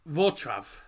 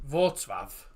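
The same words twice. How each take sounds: First: The letter L is sounded as a W. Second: The letter L is sounded as a W.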